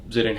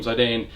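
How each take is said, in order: First: First syllable of "Zidane" like the start of "zip"; "Zidane" opening on a short zih sound. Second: First syllable of "Zidane" rhymes with "eye"; "Zidane" opening on a ZY sound; Zidane with a long I. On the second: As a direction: say "Zidane" as ZY-dane. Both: Shown as a demonstration. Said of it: "however you pronounce it properly".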